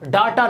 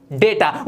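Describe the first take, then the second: First: डाटा with "aa", "DAA-ta"; wrong pronunciation. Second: डेटा with "ay", "DAY-ta"; correct pronunciation. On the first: Teacher shows learners the mistake, डाटा said "daa-ta". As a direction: open first vowel in डाटा. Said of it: "डाटा नहीं होता". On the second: Teacher repeats for learners, डेटा said "day-ta". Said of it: "ये होता है". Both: Shown as a demonstration.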